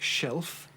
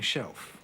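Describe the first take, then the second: First: The L is made with the tongue tip. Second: The L sounds like a W-like vowel.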